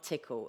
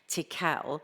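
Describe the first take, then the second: First: The name sounds like the everyday word tickle. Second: The name does not sound like tickle. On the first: The speaker calls it wrong. "not Tickle as Dawn calls them" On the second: The speaker calls it right. "I do need to say it correctly"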